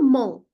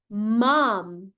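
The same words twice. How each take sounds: First: The final M is dropped into a nasal vowel. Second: The final M is clearly pronounced with closed lips. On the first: The speaker calls it wrong. "eu não falo mom" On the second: The speaker calls it right. "Terminou com M, a gente pronuncia muito bem esse M"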